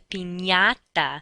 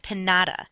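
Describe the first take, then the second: First: The middle consonant is an N followed by Y. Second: The middle consonant is a plain N sound. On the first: The speaker calls it right. "that N Y sound" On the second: The speaker calls it wrong. "is not a pinata"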